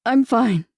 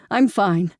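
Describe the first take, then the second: First: Strained, louder I'm fine; barely holding back tears. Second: Said in the usual way. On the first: A narrator's reading. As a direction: force the words out. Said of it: "She could barely get the words out". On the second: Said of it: "Carol insists, pulling away".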